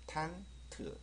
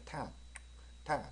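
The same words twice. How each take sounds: First: 탄 트 in two beats, with an 으 vowel on 트; 탄, then a short separate 트; added 으 vowel. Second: 탄 cut off with a light tongue tick for the final t; 탄 as one syllable with a clicked t; tongue-clicked ending. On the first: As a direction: sound out a separate 트 after 탄. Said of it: "으 발음 하나 집어넣습니다". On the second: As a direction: click the tongue to end 탄, no 으 vowel. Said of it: "혀를 차는 게 가장 좋다". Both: Shown as a demonstration.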